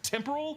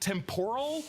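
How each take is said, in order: First: The word sounds like 'temper' with an added ending. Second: The word sounds like 'tempura' with an added ending. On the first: The speaker calls it right. "the correct temporal" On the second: The speaker calls it wrong. "Owen Wilson always pronounced it temporal"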